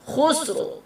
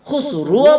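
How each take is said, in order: First: The final r is lightly voiced with no vowel. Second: The final r is followed by a u vowel. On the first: The speaker calls it right. "রার উপরে জজম লাগিয়ে দিতে হবে" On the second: The speaker calls it wrong. "খুসরুও বলতে পারবেন না"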